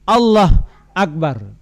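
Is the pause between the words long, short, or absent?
short. There is a short pause between the words.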